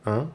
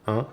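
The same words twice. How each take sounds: Both takes have the same delivery.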